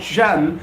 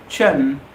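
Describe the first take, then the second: First: "shun" said slowly as the wrong ending, ʃʌn. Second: "chun" said low, as a tʃən ending; right ending. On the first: Teacher to viewers, showing the wrong ending of question. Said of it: "is not question. It's not shun". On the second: Teacher to viewers, modelling the right ending of question. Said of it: "it's question, chun". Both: Shown as a demonstration.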